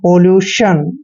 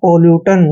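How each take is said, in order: First: The last syllable is said as 'shun'. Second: The last syllable is said as 'tun'. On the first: The speaker calls it right. "टी आई ओ एन का उच्चारण हमने शन करना है" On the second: The speaker calls it wrong. "जो कि गलत है"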